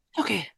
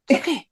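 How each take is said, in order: First: Softer repeat. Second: Said in the usual way. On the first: Shown as a demonstration. Host repeats the line to herself, much softer. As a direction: repeat it much softer, almost under the breath.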